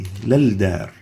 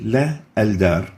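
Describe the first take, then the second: First: The parts merge without a glottal stop. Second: A glottal stop separates the two parts. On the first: The speaker calls it right. "instead we say" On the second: The speaker calls it wrong. "We don't say"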